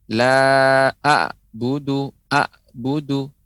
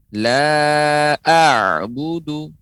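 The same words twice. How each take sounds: First: "a'budu" with a plain glottal stop like alif; ain keliru. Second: "La a'budu" drawn out slowly with a throaty ain; ain yang benar. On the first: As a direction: cut the first vowel of "a'budu" short, no throaty ain. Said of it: "tidak boleh". ("a'budu" keliru, ain dibaca seperti hamzah) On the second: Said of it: "huruf ain pengucapannya". ("La a'budu" pelan, ain jelas dari tenggorokan) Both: Shown as a demonstration.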